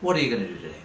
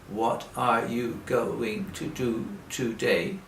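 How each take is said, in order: First: It is said fast and run together. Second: It is said slowly, word by word.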